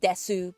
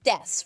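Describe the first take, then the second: First: The final vowel is pronounced. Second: The final vowel is dropped. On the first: The speaker calls it wrong. "Not Desu" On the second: The speaker calls it right. "It's Des, right?"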